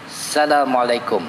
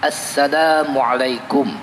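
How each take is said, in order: First: The greeting starts without the article 'as-'. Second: The greeting starts with the article 'as-'. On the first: The speaker calls it wrong. "Tak boleh kita baca" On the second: The speaker calls it right. "membaca dengan alif lam makrifah"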